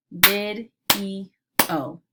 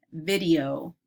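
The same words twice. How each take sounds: First: "Vid-E-O" as three separate beats; segmented into syllables. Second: Said in the usual way. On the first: Shown as a demonstration. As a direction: leave clear gaps between vid, e and o in "Vid-E-O". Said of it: "segment words into syllable parts". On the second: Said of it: "I'll say the word".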